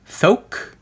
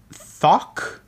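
First: Thok with a long "oh", like "thoke"; tentative Thok, rounded "oh" vowel; unsure pronunciation. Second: Thok with an open "ah", like "thock"; tentative Thok, short open vowel; unsure pronunciation. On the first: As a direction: say Thok to rhyme with "oak", questioning. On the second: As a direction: say Thok to rhyme with "lock", questioning. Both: Shown as a demonstration. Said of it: "I don't know how to pronounce it".

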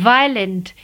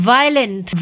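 No difference in how they are said.

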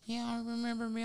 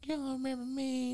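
First: High, soft teasing question; little soft voice. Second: High, soft put-on girl voice; little soft voice. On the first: Retold or imitated. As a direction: mimic her sweet voice asking if he forgot her. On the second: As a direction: mimic her coy question again in the same voice. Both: Caller teasing Mike on the phone, high soft imitation. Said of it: "She talking with this little soft voice".

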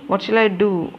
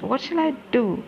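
First: Said in the usual way. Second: High, breathless despair; frightened cry for help; panicked. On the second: Acted. Panic after finding the bodies.

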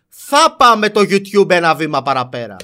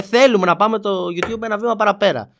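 First: Θα hit slow and a bit louder, as a sure promise; mock the claim with a firm θα; stress on certainty. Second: Θέλουμε stressed as the key word, a statement of intent; stress on wanting. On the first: A YouTuber imitating how critics twisted it, θα stressed. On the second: A YouTuber quoting his own words, stressing θέλουμε. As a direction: lean on θέλουμε, we only want to. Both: Shown as a demonstration. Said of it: "Από πότε το «θέλουμε» έγινε «θα»".

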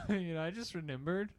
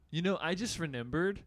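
First: "remembered" eased off at the end; softer ending. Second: "remembered" with a lifted, hard-stressed ending; mock friend's phrasing. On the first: Shown as a demonstration. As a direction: let "remembered" flow out gently. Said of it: "You put so much emphasis on the end". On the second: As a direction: hit the end of "remembered" with a rising push. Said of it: "Don't put so much emphasis on it".

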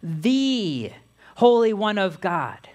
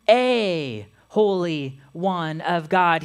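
First: "the" drawn out as a long "thee", then a pause; stress on "the". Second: "a" drawn out as a long "ay", then a pause; stress on "a". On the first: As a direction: lean slowly on "the", said as "thee". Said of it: "He calls him the". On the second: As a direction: lean slowly on "a", said as "ay". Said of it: "doesn't call Jesus". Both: Shown as a demonstration.

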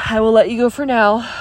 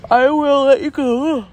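First: Said in the usual way. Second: High words stretched by a yawn. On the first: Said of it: "Excuse me". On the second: Real, not acted. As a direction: say it right through a yawn. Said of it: "I keep yawning".

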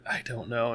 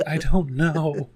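First: Said in the usual way. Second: Loud, drawn-out mock despair, half laughing; exasperated kid. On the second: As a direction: act out giving up on homework, higher and slower. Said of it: "drop my head on the table".

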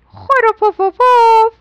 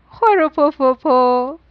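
First: Higher, louder, slow snore. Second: Said in the usual way. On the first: A narrator's reading. Everyone asleep, storyteller snoring loud and slow.

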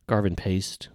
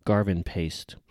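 Both takes have the same delivery.

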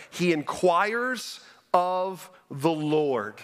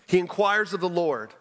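First: He inquires of the Lord drawn out slowly; slow emphatic reading. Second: Said in the usual way. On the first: Shown as a demonstration. Pastor stressing the phrase for the congregation, slow. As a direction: lean on inquires, dragging the phrase. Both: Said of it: "It's phrased this way".

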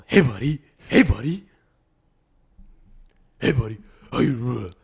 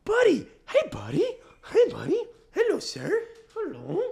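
First: Loud, gruff-casual dog greeting; bro greeting. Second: Very high cooing dog voice; baby talk. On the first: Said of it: "pretend like he's your bro". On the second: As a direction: squeak greetings as if to a baby. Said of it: "speak to him like he's a baby". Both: Shown as a demonstration.

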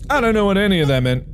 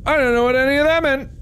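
First: Quick, higher, rushed; fast baffled repeat. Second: Much higher cartoonish squeak; high squeaky voice. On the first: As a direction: rattle it off in confusion. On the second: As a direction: squeak it out, baffled. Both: Real, not acted.

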